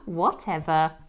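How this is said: It sounds light and giggly, like teasing. The speaker is brushing off a friendly tease. "That friend may giggle and dismiss your comments with"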